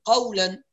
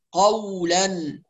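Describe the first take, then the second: First: "قولاً" with the "و" loosely rounded; slack waaw, wrong. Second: Slow "قولاً" with a fully lip-rounded "و"; rounded waaw. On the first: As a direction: leave the lips lax on the "و" of "قولاً". ("قولاً" بواو دون ضم الشفتين) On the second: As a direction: pout firmly on the "و" of "قولاً". ("قولاً" بضم الشفتين عند الواو) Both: Shown as a demonstration. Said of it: "لا تخرج إلا بضم الشفتين".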